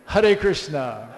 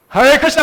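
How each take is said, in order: First: It is said calmly, without extra energy. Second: It is said with lively enthusiasm.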